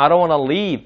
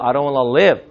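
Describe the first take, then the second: First: "leave" with a stretched, tense "ee"; long ee contrast. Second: "live" short and lax, like "lev"; short i contrast. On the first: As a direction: end the sentence on a long "leave". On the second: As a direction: end the sentence on a relaxed, short "live". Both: Shown as a demonstration. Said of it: "차이가 난다는 얘기죠".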